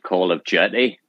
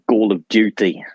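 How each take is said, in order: First: It is said in a Northern Irish accent. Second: It is said in a South African accent. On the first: "part Northern Irish, you would say Call of Jetty" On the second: "if I was from South Africa? ... Call of Duty probably is how you would do it"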